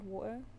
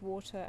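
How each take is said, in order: First: The T is replaced by a glottal stop. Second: The T is a hard, fully released T. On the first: "other times we just do like the glottal stop" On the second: "sometimes we do very hard T's"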